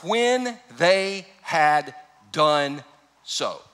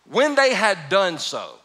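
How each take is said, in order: First: Drawn out very slowly, word by word; much slower repeat. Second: Each word stretched and weighted; slow emphatic reading. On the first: Preacher repeating the five words for emphasis, very slow. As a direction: stretch it out even further. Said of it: "These five words". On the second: Preacher stressing the five words, slow and weighty. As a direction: lean on every word, slowly. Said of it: "God, this is huge". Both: Shown as a demonstration.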